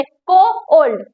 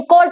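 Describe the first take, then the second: First: "को ओल्ड" drawn out in two slow pieces; wrongly split word. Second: Said in the usual way. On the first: Shown as a demonstration. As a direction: break it slowly into "को", then "ओल्ड". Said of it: "इसमें हम ऐसे नहीं कहते". ("को ओल्ड" गलत तरीके से दो टुकड़ों में) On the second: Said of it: "कोल्ड सीधा बोल देते हैं".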